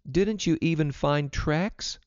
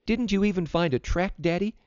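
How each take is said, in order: First: Put-on high, slow, questioning girl; girl's question. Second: Put-on higher, more insistent girl; girl repeating question. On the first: Vida questions father home from the hunt, high and slow. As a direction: ask slowly in a raised child's pitch. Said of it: "asked Vida". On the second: Vida asks her reluctant father once more, high and insistent. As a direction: press Daddy with a high-pitched question. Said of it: "she repeated". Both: A narrator's reading.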